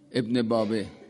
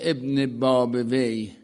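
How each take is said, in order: First: The name ends with a short 'babeh'. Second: The name ends with 'babawayh'. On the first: This is how Tehran locals say it. "در تلفظ تهرانی میگن ابن بابه" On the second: This is the Arabicized form. "ابن بابویه می شده ابن باب وی"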